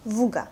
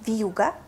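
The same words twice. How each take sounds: First: "вуга" with hard в straight into oo; no soft sign. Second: "Вьюга" with a y-glide, vyu-ga; soft sign separation. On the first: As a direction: say "вуга" without any y-glide. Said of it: "If we don't have a soft sign". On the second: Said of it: "when the consonant and vowel separated". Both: Shown as a demonstration.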